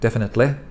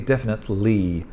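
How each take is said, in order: First: The final vowel is clipped short. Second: The final vowel is stretched long. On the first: The speaker calls it wrong. "many people don't know how to stretch the final ly sound" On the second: The speaker calls it right. "It should be definitely"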